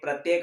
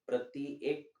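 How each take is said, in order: First: Said quickly, merged into one joined word. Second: Said slowly, split into two separate words. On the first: "इसी तरह से आप इनको भी बोल सकते हैं" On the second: "वापस अगर आप धीमी गति करो"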